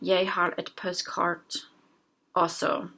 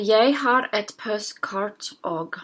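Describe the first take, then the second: First: The last word is said in full. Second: The last word is shortened to one syllable.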